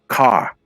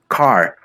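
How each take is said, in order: First: The R at the end is dropped. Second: The R at the end is strongly pronounced. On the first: "in the Australian English, you will say car. It's like the R is not even pronounced" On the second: "In American English, you will say this, the R is really really strong"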